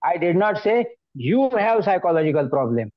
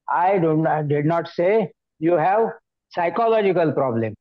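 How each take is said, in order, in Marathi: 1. जोर 'you' या शब्दावर आहे. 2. जोर 'psychological' या शब्दावर आहे. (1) "आता तुझ्यावरती जर जोर दिला तर काय झालं" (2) "म्हणजे मानसिक प्रॉब्लेम आहे तुझ्यामध्ये असं मी म्हणत नाहीये"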